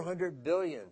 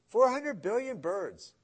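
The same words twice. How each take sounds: First: Said in the usual way. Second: "Four hundred billion birds" slow, with a high punch on "Four"; stress on Four, slowed. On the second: Shown as a demonstration. Preacher repeats the number to amaze the congregation, slow and stressed. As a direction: lean on "Four" and let "hundred billion birds" fall slowly.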